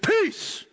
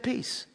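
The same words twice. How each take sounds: First: It is said in a tough, forceful way. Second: It is said in a gentle, quiet way.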